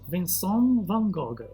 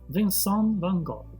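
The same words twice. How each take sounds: First: The name is said with a French pronunciation. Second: The name is said with a French pronunciation.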